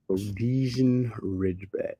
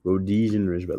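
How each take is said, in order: First: Rhodesian Ridgeback drawn out slowly, syllable by syllable; careful sounding out. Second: Said in the usual way. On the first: Shown as a demonstration. Streamer reads the breed name off screen, slowly sounding it out.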